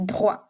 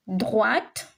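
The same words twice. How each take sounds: First: "Droit" said drwa, open ending; short "Droit" ending on the vowel; silent final t. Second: "Droite" said drwat, with a clear t; teacher's rising "Droite", last consonant heard; sounded final t. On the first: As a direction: drop the t at the end of "Droit". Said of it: "back to this explanation". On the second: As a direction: close "Droite" on a released t. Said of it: "E at the end". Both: Shown as a demonstration.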